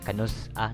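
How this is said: There is a short break inside the word. The speaker calls it right. "like there's a pause between"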